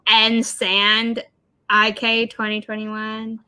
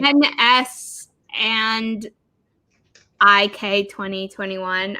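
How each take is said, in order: First: Part of the name is read as a word. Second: The name is read out as separate letters.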